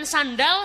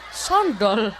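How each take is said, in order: First: It uses the standard 'a' vowels. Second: It uses Surabaya-style 'o' vowels.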